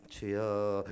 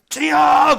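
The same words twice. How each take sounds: First: It is said weakly and quietly. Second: It is said strongly and loudly.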